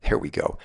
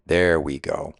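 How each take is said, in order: First: Soft whisper under the breath; whispered relief. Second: Said in the usual way. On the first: Real, not acted. Pocket door finally opens.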